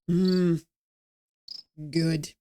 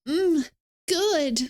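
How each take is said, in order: First: It is said flat and cold. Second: It is said with warm enjoyment.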